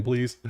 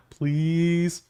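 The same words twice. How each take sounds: First: Said in the usual way. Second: "Please." drawn out, higher and begging; pleading. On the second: Real, not acted. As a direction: beg for it, half joking. Begging for a real game.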